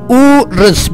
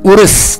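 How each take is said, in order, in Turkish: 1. Ünlü daha uzun söylenir. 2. Ünlü kısa. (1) "Biraz daha uzatarak okuyoruz" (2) "Urız demiyoruz"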